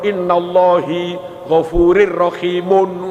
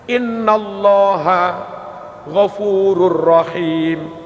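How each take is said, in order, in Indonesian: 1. Allah dibaca dengan akhiran 'i', berakhir di rahimun. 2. Allah dibaca dengan akhiran 'a', berakhir di rahim. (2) "Ada inna, maka Allah harus dibaca Allaha"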